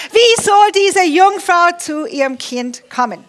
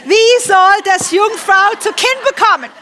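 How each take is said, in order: First: Said in the usual way. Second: Higher, louder mock-indignant question; cheeky retort. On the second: Preacher voicing cheeky Maria questioning the angel, sassy and raised. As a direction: play Maria talking back to the angel, sassy. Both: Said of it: "sie war frech".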